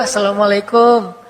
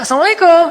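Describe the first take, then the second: First: It is said in a pitiful, sad way. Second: It is said in a lively, enthusiastic way.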